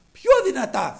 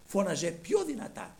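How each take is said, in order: First: Raised, high emphatic repeat; louder. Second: Said in the usual way. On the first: A narrator's reading. Preacher stressing that the blind man shouted more, louder. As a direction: let the voice grow as loud as the words.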